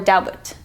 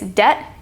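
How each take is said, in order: First: The B sound is pronounced in the word. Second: The B sound is left out of the word. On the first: The speaker calls it wrong. "It's not debit" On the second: The speaker calls it right. "you don't say the B. It's silent"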